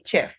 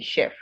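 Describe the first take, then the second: First: The word begins with a ch sound. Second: The word begins with a sh sound. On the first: The speaker calls it wrong. "If you try to pronounce chef with ch" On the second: The speaker calls it right. "you have the sound as sh"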